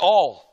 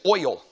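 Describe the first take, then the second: First: It is said with the speaker's Southern accent. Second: It is said imitating a Chicago accent.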